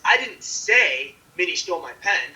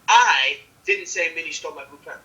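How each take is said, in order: First: The stress is on the word say. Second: The stress is on the word I. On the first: It was indicated some other way, not said. "you didn't say it" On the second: Someone else said it. "If I put it on I, the first word"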